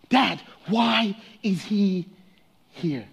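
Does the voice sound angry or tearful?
tearful. It sounds tearful and choked up.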